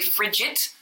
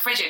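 First: The word ends with a T sound. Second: The word ends with a D sound. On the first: "in Ireland, we always say frigid" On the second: "Like a frigid"

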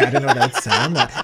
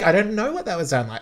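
First: It is said in a pointed, dismissive tone. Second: It is said in a light, innocent-sounding tone. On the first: It is a dig at the other singer. "And then she says it like that" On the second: She claims no insult was intended. "the tone changes. So it's like, no, I'm innocent"

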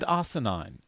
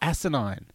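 First: The first syllable sounds like 'arse'. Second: The first syllable sounds like 'ass'. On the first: The speaker calls it wrong. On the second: The speaker calls it right.

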